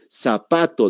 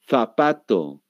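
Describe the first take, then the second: First: The word begins with an s sound. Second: The word begins with a th sound. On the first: This is how people here say it. The speaker calls it wrong. "Zapato decimos, pero está mal pronunciado" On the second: This is the standard Spanish pronunciation. The speaker calls it right. "Lo correcto es el zapato"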